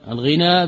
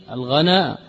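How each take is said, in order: First: الغنى with an "i" after the ghayn, ghina; kasra on الغنى. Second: الغنى with an "a" after the ghayn, ghana; fatha on الغنى. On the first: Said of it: "بالكسر". (الغنى بكسر الغين) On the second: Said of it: "وبفتح الغين". (الغنى بفتح الغين) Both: Shown as a demonstration.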